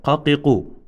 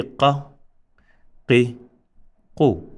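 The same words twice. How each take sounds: First: "qa, qi, qu" run together as one word, no pauses; connected syllables. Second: "qa, qi, qu" as separate short syllables, a clear pause after each; separated syllables. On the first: Teacher showing connected letters, "qa, qi, qu" said joined. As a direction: join "qa, qi, qu" into a single short-vowelled word. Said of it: "these are connected". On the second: Teacher showing separated letters, "qa, qi, qu" said apart. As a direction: break "qa, qi, qu" into standalone letters. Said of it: "these are separated". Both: Shown as a demonstration.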